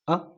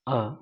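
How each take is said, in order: First: The vowel is held for a very short time. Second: The vowel is held for a short time. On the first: "बहुत कम देर के लिए जब अ की आवाज़ आती है तो हम फर्स्ट नंबर का" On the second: "short time के लिए आ रही है आवाज़ अ की"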